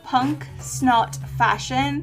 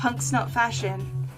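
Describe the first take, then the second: First: The name is said at a normal pace. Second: The name is said quickly, words run together.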